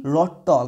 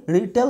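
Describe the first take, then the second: First: रोटॉल with rounded "aw" vowels; wrong "o" sound. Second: रिटेल with "e" vowels; correct "a" sound. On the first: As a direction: say रोटॉल slowly as "ro-tawl". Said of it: "ना कि रोटॉल होगा". (रोटॉल में गोल "ऑ" की ध्वनि) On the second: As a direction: say रिटेल with a clear "tel" ending. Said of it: "तो यहाँ पे रिटेल होगा". (रिटेल में "ए" की ध्वनि) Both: Shown as a demonstration.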